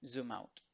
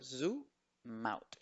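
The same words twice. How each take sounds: First: "Zoom out" linked as one word, zoo-mout; joined as one. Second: "Zoom out" broken as zoo, pause, mout; split into syllables. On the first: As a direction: run "Zoom out" together with no gap. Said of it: "como que si fuera una sola palabra". ("Zoom out" junto, como una sola palabra) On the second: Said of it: "lo mismo podemos hacer con". ("Zoom out" separado: zu... maut) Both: Shown as a demonstration.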